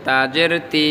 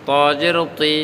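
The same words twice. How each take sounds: First: 'তি' with a thin, light t. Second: 'তজের' and 'তি' with a thick, rounded t; heavy T. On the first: Teacher contrasts two letters, 'তি' with a light t. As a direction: keep the t of 'তাজের তি' light. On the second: Teacher contrasts two letters, 'তি' with a heavy t. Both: Shown as a demonstration. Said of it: "তি আর তুই কিন্তু এক না".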